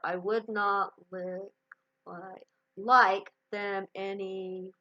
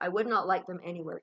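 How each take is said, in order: First: The words stumble with a broken, repeated start. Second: The words flow smoothly without any stumbling.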